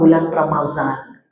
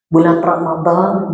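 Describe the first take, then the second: First: The middle consonant is a plain z sound. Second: The middle consonant is a heavy dh sound.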